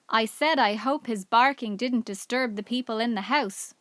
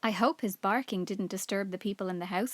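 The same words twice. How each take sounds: First: Repeated louder for a deaf listener. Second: Said in the usual way. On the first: A narrator's reading. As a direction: speak up clearly so she hears. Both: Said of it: "repeated Julian in a louder voice".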